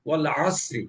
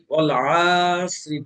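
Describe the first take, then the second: First: ওয়াল আসরি with the ain vowel kept short; correct short vowel. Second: ওয়াল আসরি with the a stretched long; wrong stretched vowel. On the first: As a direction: say ওয়াল আসরি quickly, no stretch. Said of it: "উচ্চারণটা দ্রুত করতে হবে". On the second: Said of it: "মাদ টেনে পড়ি". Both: Shown as a demonstration.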